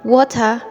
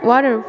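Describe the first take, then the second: First: It is said in a British accent. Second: It is said in an American accent. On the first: "water to British people" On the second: "water for American people"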